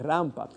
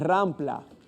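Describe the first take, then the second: First: No L sound follows the P. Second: An extra L sound follows the P. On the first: The speaker calls it right. "es rampa" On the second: The speaker calls it wrong. "no es rampla"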